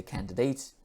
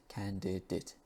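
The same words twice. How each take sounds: First: "candidates" ending in a full "dates"; "candidates" with a clear long a. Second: "candidate" ending in a short "dit"; soft "candidate" with schwa; reduced "candidate". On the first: Teacher contrasting careful speakers' version. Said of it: "some English speakers would say candidates". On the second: Teacher modelling the common relaxed form. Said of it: "would just say candidate". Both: Shown as a demonstration.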